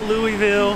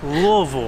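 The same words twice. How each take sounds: First: The name is said clearly, syllable by syllable. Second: The name is mumbled and run together. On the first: This is how outsiders say it. The speaker calls it wrong. "Not Louisville" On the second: This is how locals say it. The speaker calls it right. "it's like you have a mouthful of rocks"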